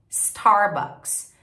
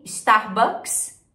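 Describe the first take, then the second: First: "Starbucks" with curled American R; falling English "Starbucks". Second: "Starbucks" with leading i and Brazilian R; slow Portuguese-style "Starbucks"; Brazilian pronunciation. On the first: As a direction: model English "Starbucks", starting on S. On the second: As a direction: say "Starbucks" as "istarbucks". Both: Shown as a demonstration. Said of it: "A principal diferença é o R".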